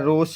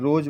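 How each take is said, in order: First: The word ends in an 'sh' sound. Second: The word ends in a 'z' sound. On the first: The speaker calls it wrong. "रोश रोशे नहीं बोलेंगे" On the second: The speaker calls it right. "रोज बोलेंगे"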